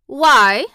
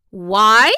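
First: Louder curt cold question; Mary coldly to Martha. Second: Louder Yorkshire echo; echoing in surprise. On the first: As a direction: ask without caring. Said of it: "said Mary coldly". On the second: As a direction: throw the word back amazed. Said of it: "echoed Martha". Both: A narrator's reading.

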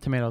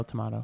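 First: "tomato" with a long AY in the middle; American pronunciation. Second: "tomato" with an open AH in the middle; British-style pronunciation. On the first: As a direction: say "tomato" as tuh-MAY-toh. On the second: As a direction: say "tomato" as tuh-MAH-toh. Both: Shown as a demonstration. Two ways of saying one word.

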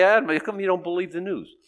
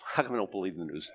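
First: Raised-pitch imitation of a challenger; mock challenge to the pastor; questioning churchgoer. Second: Low, soft, quick repeat of a question; subdued rhetorical comeback; incredulous echo. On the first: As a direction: put the question as a puzzled critic would. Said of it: "'Cause people say". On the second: Real, not acted. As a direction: throw the question back under your breath. Echoes critic's question back.

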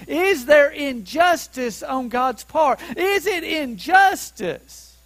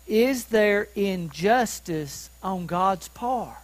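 First: Higher-pitched, ringing rhetorical question; impassioned challenge. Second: Slow, deliberate reading of the question; measured scripture reading. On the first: Preacher pressing Paul's question on the congregation, impassioned and raised. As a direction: throw the question out with force. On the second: Preacher reading Paul's question to the congregation, slow and measured. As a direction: read the verse out slowly and evenly. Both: Real, not acted.

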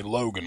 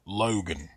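First: "Logan" with a long, round Appalachian O; mountain Logan. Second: "Logan" with the O stretched slow and long; drawn-out Logan. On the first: Explaining his hometown's vowel, mountain O. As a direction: stretch the O in "Logan" like a holler native. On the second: Showing listeners the mountain O, drawn out. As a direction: sing the O in "Logan" out slowly. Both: Shown as a demonstration. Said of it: "my O's are different".

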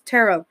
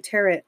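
First: TAROT with an OH ending and no final T; corrected, silent T. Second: TAROT said like carrot, T at the end; mistaken final T. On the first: Correcting self after a slip, tarot with silent T. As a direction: put tarot right, rhymed with sparrow. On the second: Owning up to viewers about saying tarot like carrot. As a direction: quote the slip, tarot rhymed with carrot. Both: Real, not acted. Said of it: "I keep saying tarot".

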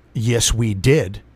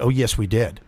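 First: Slow, low imitation of the clerk; creepy clerk. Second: Lower, softer imitation of the clerk; creepy clerk. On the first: Clerk insisting to a waiting customer, slowly mimicked. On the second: Clerk contradicting a customer at the counter, lightly imitated. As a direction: lightly mimic a clerk's low reply. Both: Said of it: "This is how she talked to me".

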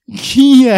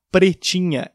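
First: Loud, high, muffled honk of "Pretinha"; garbled fanho voice. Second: Said in the usual way. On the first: Retold or imitated. Asked the dog's name, he blurts it garbled and nasal. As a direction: blurt "Pretinha" with the consonants lost in the nose. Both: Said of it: "eu não conseguia falar Pretinha".

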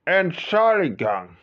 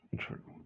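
First: High and loud, slowly stretched out; loud, drawn out. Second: Hushed apologetic whisper. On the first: Asking the hijacker loudly to be excused. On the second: Whispering to the guard to slip away. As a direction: whisper it so no one hears. Sneaking off to the toilet. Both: Acted.

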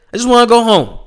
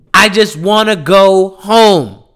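First: Higher pleading whine. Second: Slow tired plea. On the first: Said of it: "repeated plea, higher take". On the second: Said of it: "repeated plea, slow take". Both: Real, not acted.

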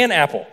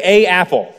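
First: "an apple", the N joining the two words; article with linking N. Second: "a apple", a full "a" with a break before apple; wrong article before a vowel. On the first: Showing a class the easier way, smooth "an apple". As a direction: glide from "an" straight into "apple". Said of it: "to make it easier to pronounce". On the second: Showing a class what English avoids, awkward "a apple". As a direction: say "a apple" with two vowels bumping together. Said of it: "we don't say". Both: Shown as a demonstration.

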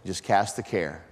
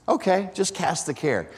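First: Calm advice. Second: Sceptical echo. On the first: Retold or imitated. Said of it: "phone calls with him have started just like that". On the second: Real, not acted. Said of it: "What does that even look like?".

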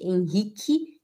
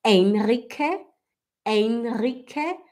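First: Henrique said as "en-hi-ki"; throaty R. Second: Henrique said slowly with a tapped tongue R. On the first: Teacher showing what does not exist, Henrique with throaty R. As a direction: say "Henrique" with an h sound for R. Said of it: "não existe Henrique". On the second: Teacher modelling the right sound, Henrique with tongue R. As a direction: say "Henrique" as "en-ri-ke", drawn out. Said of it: "e sim". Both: Shown as a demonstration.

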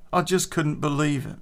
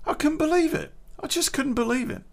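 First: Said in the usual way. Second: Pitched way up in disbelief; incredulous, higher pitch. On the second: Real, not acted. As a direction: still can't believe it, voice jumps high. Retelling girlfriend's betrayal.

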